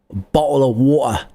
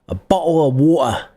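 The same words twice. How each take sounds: First: It is said in a Cockney accent. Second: The same.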